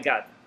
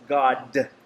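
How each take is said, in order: First: The word is said loosely, with slurred diction. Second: The word is said fully, with crisp diction. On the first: The speaker calls it wrong. "He doesn't say God. Oh my God" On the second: The speaker calls it right. "He says God"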